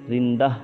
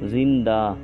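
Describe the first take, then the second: First: The final vowel is short and clipped. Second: The final vowel is drawn out long. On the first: The speaker calls it wrong. "ऐसे नहीं पढ़ेंगे" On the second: The speaker calls it right. "थोड़ा सा अलिफ की तरह खींच कर पढ़ेंगे"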